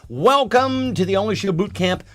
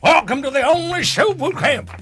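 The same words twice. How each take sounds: First: It is said in his ordinary speaking voice. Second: It is barked in a gruff drill-sergeant voice.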